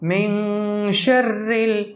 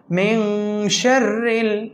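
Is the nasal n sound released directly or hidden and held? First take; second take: hidden; hidden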